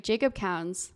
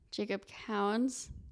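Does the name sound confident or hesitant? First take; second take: confident; hesitant. First: The name is said with clear confidence. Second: The name is said without much confidence.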